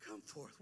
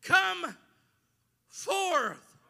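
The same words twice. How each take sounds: First: Much softer and lower, almost whispered; hushed. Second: Drawn-out loud command, higher; loud slow call. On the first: Shown as a demonstration. Preacher repeating the call to the crowd, hushed. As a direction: drop it to a hush. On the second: Real, not acted. Preacher voicing Jesus at the tomb, loud slow call. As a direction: let each word ring out.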